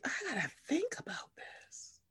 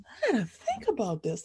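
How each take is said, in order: First: Whispered to herself; hushed inner thought. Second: Said in the usual way. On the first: Retold or imitated. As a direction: whisper it as private thinking. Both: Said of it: "I was just sitting here like".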